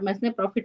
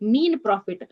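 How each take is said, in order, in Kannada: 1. ಮೊದಲ ಪದವನ್ನು s ಶಬ್ದದೊಂದಿಗೆ ಹೇಳಲಾಗುತ್ತದೆ. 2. ಮೊದಲ ಪದವನ್ನು s ಶಬ್ದವಿಲ್ಲದೆ ಹೇಳಲಾಗುತ್ತದೆ. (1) "ಬಟ್ ಮೆಸ್ನೆ ಪ್ರಾಫಿಟ್ ಅಲ್ಲ" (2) "ಸೊ ಎಸ್ ಅಲ್ಲಿ ಪ್ರೊನೌನ್ಸ್ ಆಗಲ್ಲ"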